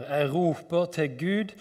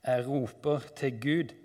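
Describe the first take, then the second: First: Raised, urgent call to God; crying out. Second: Said in the usual way. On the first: Acted. Psalmist crying out to God, raised urgent call. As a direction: read it as a mounting cry. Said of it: "Jeg skriker".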